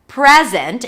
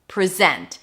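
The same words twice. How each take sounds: First: The stress is on the first syllable. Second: The stress is on the second syllable. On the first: It is a noun, a gift. "if the stress is on the first syllable, it's a noun" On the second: It is a verb, to show something. "If it's a verb, the stress is going to be on the second syllable"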